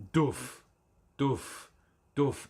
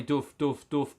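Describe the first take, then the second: First: A mouthed kick drum, three even beats; beatbox kick drum. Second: The kick looped back, same steady beats; beatbox kick drum repeating. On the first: Showing viewers how a looper works, beatboxed kick. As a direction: thump out a bass drum with your lips. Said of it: "So you go". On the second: Explaining the looper's playback, mild beatboxed kick. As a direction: play back the drum like a machine. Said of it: "it'll play". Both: Shown as a demonstration.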